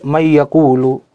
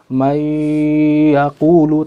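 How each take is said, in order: First: The n is pronounced separately before the y. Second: The n merges nasally into the following y. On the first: The speaker calls it wrong. "dia membaca tanpa idgham" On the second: The speaker calls it right. "ada idgham bi gunnah"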